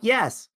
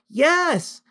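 First: It is said at a normal volume. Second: It is shouted very loudly.

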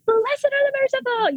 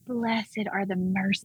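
First: It is said in a bright, upbeat tone. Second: It is said in a quiet, somber tone.

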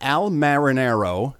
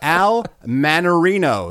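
First: The surname is said as Marinaro. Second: The surname is said as Manarino. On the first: The speaker calls it wrong. "No, I'm saying that wrong" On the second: The speaker calls it right. "There we go"

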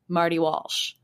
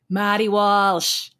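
First: It is said in a neutral American accent. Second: It is said in a strong Boston accent.

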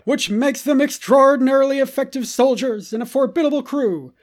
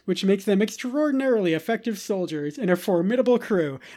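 First: It is read in a put-on Clone Wars voice. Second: It is read in his normal voice.

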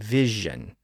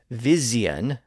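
First: The middle consonant is a zh sound. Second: The middle consonant is a z sound. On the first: This is the modern pronunciation. "they shifted to a new J sound" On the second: This is the older pronunciation. "Words that had a Z sound"

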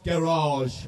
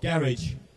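First: Garage is said with a non-British pronunciation. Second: Garage is said with a British pronunciation.

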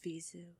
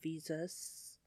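First: The name ends without an S sound. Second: The name ends with an S sound. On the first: The speaker calls it right. "it's pronounced Vizu" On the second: The speaker calls it wrong. "Not Visus"

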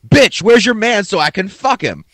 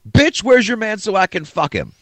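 First: It is said louder than before. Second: It is said at normal volume.

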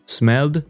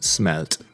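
First: The word ends with a d sound. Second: The word ends with a t sound. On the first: "here you pronounce d or t" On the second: "here you pronounce d or t"

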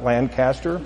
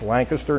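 First: It is pronounced the way non-locals say it. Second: It is pronounced the way Pennsylvania locals say it. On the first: This is how outsiders say the name. The speaker calls it wrong. "not Lancaster" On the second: This is how people from the area say the name. The speaker calls it right. "if you're from Pennsylvania, it's Lancaster"

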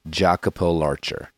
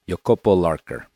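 First: The name is said with American English pronunciation. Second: The name is said with Italian pronunciation. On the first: The speaker calls it wrong. "not Jacopo Larcher, as you might have thought and read" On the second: The speaker calls it right. "Italian climber Jacopo Larcher"

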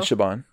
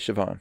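First: The middle consonant is not a v sound. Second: The middle consonant is a v sound. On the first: The speaker calls it wrong. "I've always said" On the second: The speaker calls it right. "but I should say"

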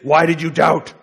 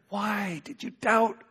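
First: The question sounds harsh and accusing. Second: The question sounds warm and gentle. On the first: The asker condemns the listener for lacking faith. "Jesus is really incriminating Peter for being faithless" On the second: The asker encourages the listener who almost succeeded. "You were so close. You were moving in the right direction"

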